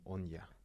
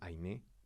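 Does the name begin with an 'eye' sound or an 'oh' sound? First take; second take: oh; eye. First: The name begins with an 'oh' sound. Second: The name begins with an 'eye' sound. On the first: The speaker calls it right. "al final era como Onya" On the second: The speaker calls it wrong. "yo lo leía como Ainé"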